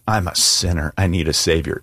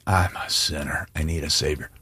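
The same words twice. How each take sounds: First: Said in the usual way. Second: Softer, hushed confession; a preacher leading the congregation in a hushed confession. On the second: Shown as a demonstration. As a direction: say it quietly with the congregation, like a prayer. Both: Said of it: "So say it with me".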